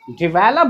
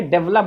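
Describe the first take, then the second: First: DEVELOP as di-VEL-up; correct pronunciation. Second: DEVELOP as DEV-lup; wrong pronunciation. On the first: Teacher contrasts for students, डिवेलप as "di-vel-up". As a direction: say डिवेलप in three syllables. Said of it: "बोलते हैं". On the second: Teacher names the form to avoid, डेवलप as "dev-lup". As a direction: say डेवलप in two syllables. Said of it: "ना कि डेवलप". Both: Shown as a demonstration.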